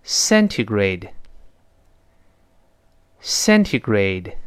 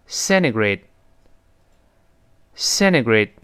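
First: Slow "centigrade" with a crisp T; careful full T. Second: "centigrade" with T melted, like "cennigrade"; fast-speech softened T. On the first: Teacher leads first word for repeating, careful pronunciation. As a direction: articulate every syllable of "centigrade", T fully sounded. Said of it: "读快了之后呢". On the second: Teacher shows what quick reading does, softened-T pronunciation. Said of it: "那个t会浊化成的". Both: Shown as a demonstration.

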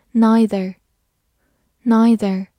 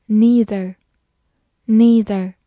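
First: "Neither" starting like "nigh", drawn out slowly; NEITHER with long-i. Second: "neither" starting like "knee", said clearly; NEITHER with long-e. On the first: Teacher models a word for learners, "Neither" said NIGH-ther. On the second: Teacher offers learners the other reading, "neither" said NEE-ther. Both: Shown as a demonstration. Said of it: "或者读作".

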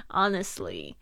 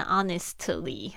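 First: HONESTLY with the T barely heard; soft-T honestly. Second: HONESTLY with a fully released T before LY; over-pronounced T. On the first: Teacher models honestly for learners, T barely audible. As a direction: say HONESTLY, letting the T nearly vanish before LY. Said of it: "T你都会听不太". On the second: Teacher warns learners against this reading, honestly with an audible T. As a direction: sound out the T in HONESTLY as a separate puff. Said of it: "大家不要念成honestly". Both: Shown as a demonstration.

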